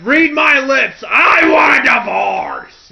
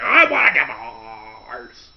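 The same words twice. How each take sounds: First: Loud, high, slow shout demanding a divorce; Vince McMahon shouting. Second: Slow, loud yell in a put-on boss voice; Vince McMahon yell. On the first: Retold or imitated. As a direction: bellow it like a furious wrestling boss. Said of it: "just the way he says it". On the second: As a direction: hammer out the demand in a put-on voice. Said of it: "He's like".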